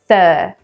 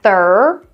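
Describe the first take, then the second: First: The R sound is cut off after the vowel. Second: The R sound is pronounced after the vowel. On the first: The speaker calls it right. "So we want to say thur" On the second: The speaker calls it wrong. "not thur"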